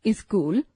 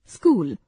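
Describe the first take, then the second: First: स्कूल said as इस्कूल with an extra i before the s; wrong pronunciation. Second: Said in the usual way. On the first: Shown as a demonstration. Teacher showing the class the wrong way to say it. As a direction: add a short i sound before स्कूल: इस्कूल. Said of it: "अशुद्ध उच्चारण". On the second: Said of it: "शुद्ध उच्चारण".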